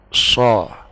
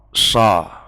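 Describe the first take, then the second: First: The vowel is slightly darkened, between a and o. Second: The vowel is a plain, light a. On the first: The speaker calls it right. "diberatkan sedikit" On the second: The speaker calls it wrong. "itu sudah hampir tepat"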